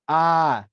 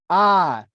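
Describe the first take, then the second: First: The sound is at ordinary indoor volume. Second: The sound is loud, like outdoor calling. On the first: "Inside voice level" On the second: "I tried using my outside voice next"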